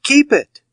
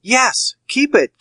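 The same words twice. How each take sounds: First: Even higher and a bit louder, cracking surrender; sweating banker giving up the money; strained high keep it. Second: Sweating banker forcing out his consent; strained high yes. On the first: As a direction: push the last keep it out at the very top. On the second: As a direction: pitch jumps way up, forced agreement. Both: Acted. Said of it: "perspiration started from the roots".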